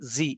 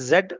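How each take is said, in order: First: The letter is said as zee. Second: The letter is said as zed. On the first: This is the American way. "US దాన్ని జీ అంటారు" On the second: This is the British way used in India. "మనం జెడ్ అని pronounce చేస్తాం"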